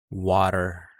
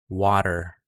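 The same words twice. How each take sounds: No difference in how they are said.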